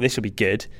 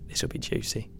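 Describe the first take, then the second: First: Said in the usual way. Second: Unvoiced whisper on "This will be juicy". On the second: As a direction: breathe "This will be juicy" like gossip.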